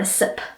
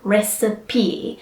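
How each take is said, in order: First: The word is said with two syllables. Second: The word is said with three syllables. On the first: The speaker calls it wrong. "try not to say" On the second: The speaker calls it right. "It is three sounds or three syllables"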